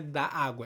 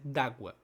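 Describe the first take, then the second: First: Both vowels are pronounced as separate syllables. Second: The two vowels merge into a single syllable. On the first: The speaker calls it wrong. "Não é da água" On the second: The speaker calls it right. "é d'água"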